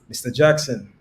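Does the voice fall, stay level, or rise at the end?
fall. The pitch falls at the end. The listener is in trouble. The speaker calls it wrong. "That's a downward inflection"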